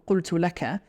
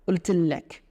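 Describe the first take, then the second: First: The first word begins with a deep 'q' sound. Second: The first word begins with a glottal stop. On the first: This is the usual standard form. "we would usually say" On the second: This is how the local dialect says it. "They don't pronounce a qaf here"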